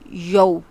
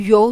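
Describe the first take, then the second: First: The vowel is said softly and smoothly. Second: The vowel is said harshly and abruptly. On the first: The speaker calls it right. "इसको बड़ी नरमी से अदा करना है" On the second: The speaker calls it wrong. "हम यौ नहीं कहते"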